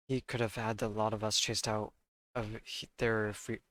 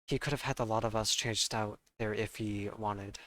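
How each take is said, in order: First: Lightly done London Cockney, dropped sounds; Cockney accent. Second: Said in the usual way. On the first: Acted. Player reading Gina's testimony aloud, in a light Cockney accent. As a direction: read the line in a mild Cockney street accent. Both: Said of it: "I need to stop reading in the accent".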